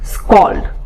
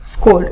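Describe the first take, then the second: First: The vowel is an 'aw' sound. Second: The vowel is an 'oh' sound. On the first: The speaker calls it right. "It's স্কল্ড" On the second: The speaker calls it wrong. "It's not স্কোল্ড"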